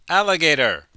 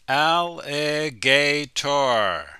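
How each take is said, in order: First: The word is said quickly and reduced. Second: The word is said slowly and carefully.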